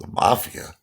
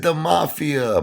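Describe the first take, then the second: First: Higher, startled questioning echo; shocked father. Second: High-pitched mock wail; imitated hysterical crying. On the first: Retold or imitated. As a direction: repeat it back in mock disbelief. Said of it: "had a cough. He dropped it". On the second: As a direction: cry it out like a distraught mother. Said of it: "hysterical crying".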